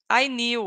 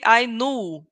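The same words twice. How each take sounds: First: The vowel in knew is not a pure ooh. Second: The vowel in knew is a pure ooh. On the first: The speaker calls it wrong. "usually you pronounce like knew" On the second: The speaker calls it right. "You are going to say I knew. Ooh, ooh"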